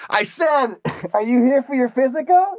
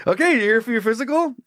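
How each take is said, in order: First: High, raised voice, insistent repeat; shouting over noise. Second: Raised-pitch voice over a fan; talking over noise. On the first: Costumed doctor repeats himself over the suit's fan, hollering. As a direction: holler it above a running fan. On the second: Costumed doctor talks over the suit's fan, voice raised. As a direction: project the question above the whirr. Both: Acted. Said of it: "he's talking over that of the fan".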